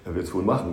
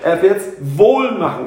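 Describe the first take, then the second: First: It sounds doubtful, like 'probably'. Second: It sounds confident, like 'he'll do it well'.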